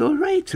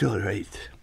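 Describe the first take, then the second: First: Said in the usual way. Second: Unvoiced whisper on "all right". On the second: Host mocks radio gloss over answers, whispering.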